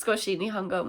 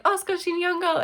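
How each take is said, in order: First: Said in the usual way. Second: "Skoshi nihongo" pitched up high; eager Japanese attempt. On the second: Re-enacting saying it to the woman.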